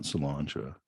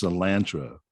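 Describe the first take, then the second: First: CILANTRO as "suh-LAHN-tro", lower and softer; rejected broad-A pronunciation. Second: CILANTRO as "suh-LAN-tro", A as in "land"; flat-A pronunciation. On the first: Host rejecting the cook's version, cilantro as "suh-LAHN-tro". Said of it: "not cilantro". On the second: Host correcting the cook, cilantro as "suh-LAN-tro". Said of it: "I think that's pronounced". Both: Shown as a demonstration.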